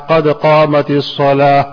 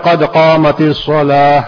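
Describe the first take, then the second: The two takes are said the same way.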